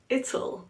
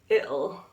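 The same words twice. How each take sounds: First: It is contracted with a clearly pronounced T. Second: It is contracted with a glottal stop for T. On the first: "we have it'll" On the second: "with a glottalized T, which is very common in the U K"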